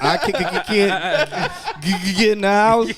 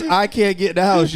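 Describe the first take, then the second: First: Mock stutter on "can't" and "get"; imitated stutter. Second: Said in the usual way. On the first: Teasing friend over how he reads texts, mock stutter. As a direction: catch repeatedly on the hard consonants. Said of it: "you be like". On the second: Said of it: "so even if his text message says".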